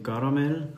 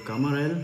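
First: Said in the usual way. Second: "Kamarell" with the syllables swapped, ending on a slight rise; playful mispronunciation. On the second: Shown as a demonstration. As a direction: say "Kamarell" as a jokey twist of Karamell. (scherzhaft verdreht "Kamarell" gesagt) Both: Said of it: "oder Kamarell".

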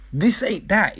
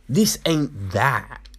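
First: "This ain't that" repeated higher, insistent; emphatic repeat. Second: Said in the usual way. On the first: Real, not acted. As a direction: hit "This ain't that" in a raised pitch.

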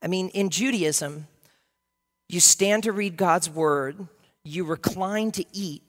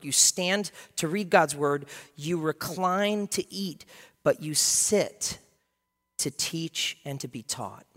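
First: Said in the usual way. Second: \"You stand to read God's word\" spaced out slowly; slow, deliberate emphasis. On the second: Shown as a demonstration. Pastor teaching the congregation, slow weighted emphasis. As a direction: lay each phrase down slowly. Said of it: "repeating custom, slower".

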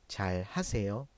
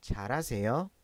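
First: پ full careful Korean form. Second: Relaxed quick Korean version; fast spoken form. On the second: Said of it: "ه صداش از بین میره و ل صدای ر". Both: Shown as a demonstration.

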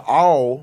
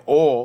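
First: "all" drawn out with a full L; standard pronunciation. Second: "all" in an up-north accent, closer to "awl"; changed accent. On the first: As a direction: say "all" slowly, as spelt A-L-L. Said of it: "like A L L". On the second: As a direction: say "all" with the other region's rounded vowel. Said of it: "her accent changing". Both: Shown as a demonstration.

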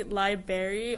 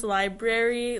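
First: "library" as LIE-berry; old mispronunciation. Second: "library" as LIE-brair-ee, R kept; standard library. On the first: Co-host showing how she used to say it, LIE-berry for library. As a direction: drop the first R in "library". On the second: Co-host recalling her old mistake, full library first. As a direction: keep both Rs in "library". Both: Shown as a demonstration. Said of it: "I used to pronounce".

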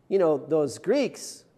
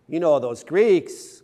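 First: Said in the usual way. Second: "Greeks" pushed louder with a knowing slow lean; louder knowing repeat. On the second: Shown as a demonstration. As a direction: say "those Greeks" again, louder and slower, with a knowing wink.

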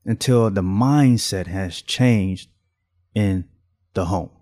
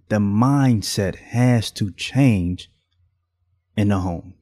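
First: "mindset" stressed again, slow and deliberate; slow repeated emphasis. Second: Mindset stressed, each word slow and weighty; slow emphasis. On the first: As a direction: repeat it slowly, pressing "mindset". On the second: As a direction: lean hard on "mindset", slow and louder. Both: Shown as a demonstration. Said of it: "I'ma say it again".

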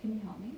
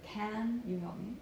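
First: "can" short and light, weight on "help"; reduced CAN. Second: Slow, drawn-out "can" with a full vowel; full strong CAN. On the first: Coach giving the preferred form, "can" small and quick. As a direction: shrink "can" into the phrase. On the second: Coach showing the form to avoid, "can" stretched. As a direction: lean heavily on "can". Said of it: "Instead of". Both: Shown as a demonstration.

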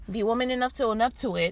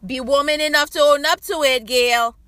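First: Said in the usual way. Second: Raised, louder, emphatic challenge; loud call-out. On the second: Real, not acted. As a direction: call her out by name, loud and insistent. Calls out Gail, then repeats it plainly.

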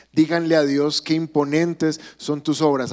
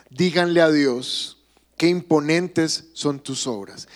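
First: Said in the usual way. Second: Slow scripture reading. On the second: Shown as a demonstration. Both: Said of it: "Salmo sesenta y seis".

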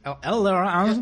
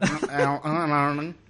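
First: Slow mock Australian drawl on e-learning; laconic outback drawl. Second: Very slow nasal e-learning. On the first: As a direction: drag out e-learning in an Aussie drawl. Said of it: "tenemos acento australiano". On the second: Pretend. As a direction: stretch e-learning through the nose. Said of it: "acento, este, gangosote".

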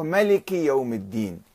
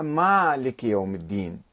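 First: ملك said short as melik, no long a; ملك without alif. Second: مالك with a long open a, maalik; مالك with alif. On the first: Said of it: "بعض القراء قرأوها". (ملك بلا ألف) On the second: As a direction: stretch the first vowel of مالك. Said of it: "البعض قرأها". (مالك بمد الألف) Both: Shown as a demonstration.

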